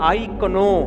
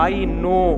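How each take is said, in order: First: The word starts with a K sound. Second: The word starts with an N sound. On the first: The speaker calls it wrong. "Silent ही होगा हमेशा" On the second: The speaker calls it right. "एक professor ने कहा I नो"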